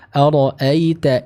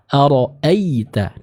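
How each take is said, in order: First: The glide flows lightly and softly. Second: The glide is pressed with heavy force. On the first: The speaker calls it right. "Yang tepat cukup dialirkan dengan lembut serta dibaca dengan tipis" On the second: The speaker calls it wrong. "jangan diberi penekanan. Misal ara'aita. Nah, ini kurang tepat"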